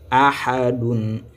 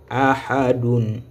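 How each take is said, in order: No difference in how they are said.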